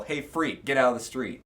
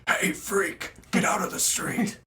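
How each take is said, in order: First: Said in the usual way. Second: Higher, rough mock yell; yelling at a kid. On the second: Shown as a demonstration. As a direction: shout it at a kid in the road. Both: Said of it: "Probably like this".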